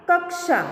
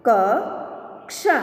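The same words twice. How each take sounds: First: Said in the usual way. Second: Slow, each sound drawn out, rising at the end; slow drawn-out reading. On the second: Shown as a demonstration. Teacher slowly sounding out a word for students, drawn out. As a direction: stretch the word slowly for the class. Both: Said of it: "अब इसका शब्द हम देखें".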